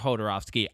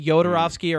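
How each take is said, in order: First: The name begins with an H sound. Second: The name begins with a Y sound. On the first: "or Hodorowski" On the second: "You can either say Yodorovsky"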